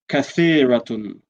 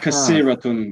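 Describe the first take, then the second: First: The middle consonant is a th sound. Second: The middle consonant is an s sound. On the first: The speaker calls it right. "It's tha" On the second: The speaker calls it wrong. "Avoid saying kasiratun"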